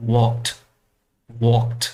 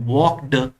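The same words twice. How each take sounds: First: "walked" ending in a clean t, "wokt"; correct pronunciation. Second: "walked" ending in a voiced d, "wok-d", very slow; incorrect pronunciation. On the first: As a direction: say "walked" with a final t sound. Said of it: "it has to be pronounced this way". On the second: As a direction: say "walked" wrongly with a d. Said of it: "it's incorrect pronunciation". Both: Shown as a demonstration.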